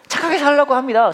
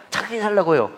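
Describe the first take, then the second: First: "살라고" hit higher and louder; emphatic declaration. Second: Said in the usual way. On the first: Shown as a demonstration. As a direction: preach "착하게 살라고" with full force.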